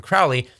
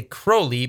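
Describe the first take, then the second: First: "Crowley" said as CROW-lee, like "cow"; preferred pronunciation. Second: "Crowley" said as CROH-lee; rejected pronunciation. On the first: Minister shows the name they use, "Crowley" rhyming with "cow". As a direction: rhyme the first syllable of "Crowley" with "now". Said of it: "but we call him Crowley". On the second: Minister shows the name they don't say, "Crowley" as CROH-lee. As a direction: rhyme the first syllable of "Crowley" with "go". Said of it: "we don't say Crowley". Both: Shown as a demonstration.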